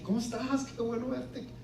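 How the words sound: The greeting sounds sincere and warm.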